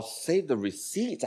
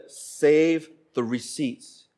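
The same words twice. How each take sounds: First: Softer, questioning rise on "receipts"; puzzled echo. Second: Very slow, measured repetition; wife's instruction. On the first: Husband baffled by wife's request, puzzled echo. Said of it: "I don't even know what she's talking about". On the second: Wife repeating to puzzled husband, very slow. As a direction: stretch out SAVE and pause before "the receipts". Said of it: "She said". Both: Retold or imitated.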